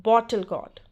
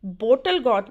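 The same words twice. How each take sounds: First: "बॉटल गॉड" with an open aw in BOT-tal; correct pronunciation. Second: "बोटल गॉड" with a long o in BOH-tal; wrong pronunciation. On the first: Teacher correcting learners on bottle gourd, correct open vowel in "बॉटल गॉड". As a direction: say "बॉटल गॉड" with an open "baw" first syllable. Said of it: "बोटल गॉड नहीं". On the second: Teacher showing learners the mistake to avoid, wrong "boh" vowel in "बोटल गॉड". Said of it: "नहीं". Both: Shown as a demonstration.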